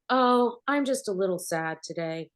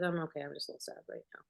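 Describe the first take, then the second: First: Mock sad line, put-on and performed; fake acted sadness. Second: Much softer, sincere hurt voice; real quiet sadness. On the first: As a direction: play sad like a bad TV actor. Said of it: "she's, you know, acting". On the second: Retold or imitated. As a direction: let the real grief slip out quietly. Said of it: "What just happened?".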